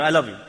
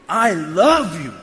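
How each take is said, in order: First: Said in the usual way. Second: "I love you" slow, with LOVE drawn out; emphatic. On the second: Shown as a demonstration. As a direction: lean long on "love" in "I love you". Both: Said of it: "It's not like, you know".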